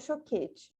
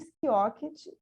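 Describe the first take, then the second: First: The surname begins with a sh sound. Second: The surname begins with an sk sound. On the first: This is how people in her hometown say the name. "em Jaraguá do Sul... eles falam choquete" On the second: This is how the speaker herself says her name. "eu falo Skioket"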